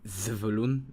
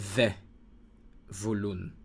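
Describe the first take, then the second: First: The first vowel is reduced and runs quickly on. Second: The first vowel is full and set apart. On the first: "you pronounce it together like zevulun. It's very quick" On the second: "pronounce the shoa here, hard, like ze"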